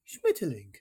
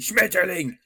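First: The word is said softly and gently. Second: The word is shouted loudly and harshly. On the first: German is not necessarily aggressive. "But if you go" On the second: German sounds aggressive. "Is if you shout it"

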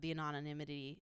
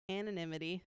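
First: The word is said with extra syllables. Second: The word is said with the normal syllables. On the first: The speaker calls it wrong. "You said too many syllables" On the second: The speaker calls it right. "Yep, that's the word"

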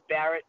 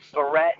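First: The name is said with a plain English pronunciation. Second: The name is said with a French-sounding pronunciation. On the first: The speaker calls it right. "but it's Barrett" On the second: The speaker calls it wrong. "try to pronounce it like maybe it's a French word"

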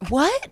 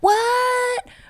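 First: It sounds disapproving and incredulous. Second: It sounds excited and happy.

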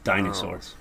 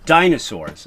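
First: The word is said at normal volume. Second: The word is said loudly.

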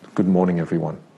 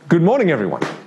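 First: It sounds sad and miserable. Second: It sounds happy and smiling.

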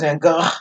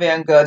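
First: The end of Gogh is breathy and guttural. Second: The end of Gogh is a hard g. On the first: The speaker calls it right. "it's like a guttural kind of like breathy noise" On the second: The speaker calls it wrong. "it's not Van Gogh"

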